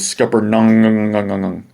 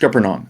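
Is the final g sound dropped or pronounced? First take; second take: pronounced; dropped. First: The final g sound is clearly pronounced. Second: The final g sound is left off. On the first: This is the form learned later as the official one. "I was surprised when I learned as a kid that it was Scuppernong" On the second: This is how it was said locally growing up. "I don't remember pronouncing the G at the end growing up. It was always Scuppernong"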